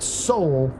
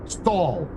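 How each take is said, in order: First: The vowel sounds like the one in 'soul'. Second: The vowel sounds like the one in 'stall'. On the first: The speaker calls it wrong. "It's not soul" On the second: The speaker calls it right. "It's pronounced um, stall"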